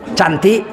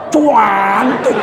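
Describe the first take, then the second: First: The word is said plainly without stretching. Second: The word is stretched with an added 'u' sound. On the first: She is only ordinarily pretty. "nggak cantik itu" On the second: She is truly very beautiful.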